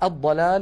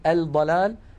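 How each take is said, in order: First: The L merges into a doubled D sound. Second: The L is clearly pronounced before the D. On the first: The speaker calls it right. "كانت العرب تدغم لام التعريف فيها" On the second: The speaker calls it wrong. "ولا نقول الضلال"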